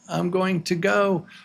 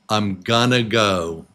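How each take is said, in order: First: Going to is said in full, word by word. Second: Going to is reduced and run together as gonna. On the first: "the expression is I'm going to go" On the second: "they say I'm gonna"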